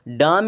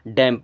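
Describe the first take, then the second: First: The vowel is a long 'ah' sound. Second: The vowel is a short 'ae' sound. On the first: The speaker calls it wrong. "डाम या दाम नहीं पढ़ना है" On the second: The speaker calls it right. "बल्कि डैम पढ़ना है"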